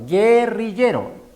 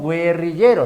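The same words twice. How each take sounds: First: The u after the g is silent. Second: The u after the g is sounded. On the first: The speaker calls it right. "sino guerrillero" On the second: The speaker calls it wrong. "no decimos guerrillero"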